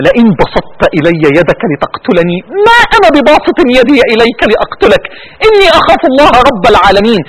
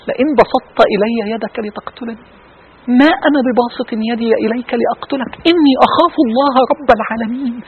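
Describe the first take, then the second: First: Tearful recitation. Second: Hushed recitation. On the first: Real, not acted. Preacher reciting Abel's words to the congregation, choked with tears. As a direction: let the tears break through the holy words. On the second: Acted. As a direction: recite the verse gently to the congregation. Preacher recites the Quran verse.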